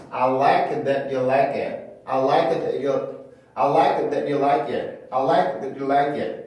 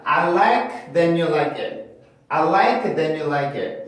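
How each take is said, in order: First: "that you" split, T stopped, no ch; cut-off T. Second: "then you" said with an n, T turned to n; wrong n-linking. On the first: Teacher showing what most speakers do, T cut off. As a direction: cut "that" off before saying "you". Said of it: "요렇게 발음하기보다 요렇게". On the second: Teacher mimicking students' common mistake, T turned into n. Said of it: "이렇게 발음을 하시거나". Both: Shown as a demonstration.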